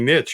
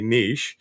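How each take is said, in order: First: It is said the American way. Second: It is said the European and Canadian way.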